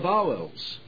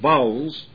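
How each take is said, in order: First: Every vowel is given its full length. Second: The middle vowel is dropped, clipping the word. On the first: The speaker calls it right. "Full weight to all of the vowels" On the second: The speaker calls it wrong. "V-O-W apostrophe L-S"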